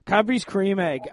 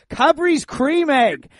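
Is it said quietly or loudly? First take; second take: quietly; loudly. First: It is said at normal volume. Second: It is said loudly.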